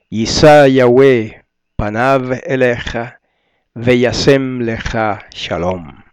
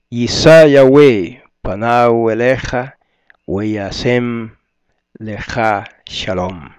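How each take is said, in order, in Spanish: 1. La letra se pronuncia con sonido de v. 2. La letra se pronuncia con sonido de w. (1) "según el hebreo moderno, que varía un poquitito de la pronunciación de algunas letras" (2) "eso es según el hebreo antiguo"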